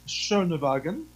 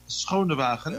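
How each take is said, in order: First: The name is said with English sounds. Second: The name is said with Dutch sounds. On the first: "it's pronounced in English" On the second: "in Dutch, we would say"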